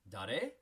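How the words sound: The voice rises at the end.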